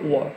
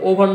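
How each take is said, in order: First: The word is contracted, the middle consonant dropped. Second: The word is said in full, with two syllables. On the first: "contracted form" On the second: "ওভার না বলে"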